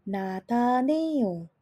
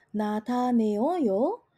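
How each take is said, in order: First: The vowels merge into a single syllable. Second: The vowels are said as separate syllables. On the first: The speaker calls it right. "dia akan berbunyi secara otomatis langsung menjadi nataneo" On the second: The speaker calls it wrong. "bunyinya tidak akan menjadi nataneoyo"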